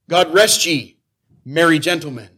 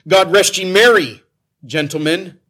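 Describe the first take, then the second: First: The pause comes after 'ye'. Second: The pause comes after 'merry'.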